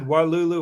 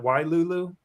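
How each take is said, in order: First: "Walulu" with a plain WAH first syllable; quoted pronunciation. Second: "Wailulu" with a WHY first syllable; corrected pronunciation. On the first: Retold or imitated. Cohost repeating the guest's version, "Walulu" opened with wah. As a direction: say "Walulu" starting wah, as misheard. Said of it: "You said Walulu". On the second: Shown as a demonstration. Cohost checking the restaurant's name, "Wailulu" opened with why. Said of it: "Wasn't it Wailulu?".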